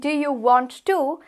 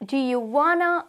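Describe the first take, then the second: First: Want to is said as two full words. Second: Want to is contracted into wanna. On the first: "rather than saying do you want to" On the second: "it's going to be coming across as do you wanna"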